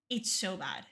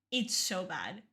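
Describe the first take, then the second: No difference in how they are said.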